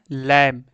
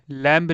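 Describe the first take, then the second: First: लैम्ब said as "lem", ending on m; silent b. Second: लैम्ब with an audible b after the m; b wrongly sounded. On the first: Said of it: "लैम होता है". (लैम्ब को "लैम" बोलना, ब मौन) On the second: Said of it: "लैम्ब नहीं होता". (लैम्ब के अंत में ब बोलकर) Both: Shown as a demonstration.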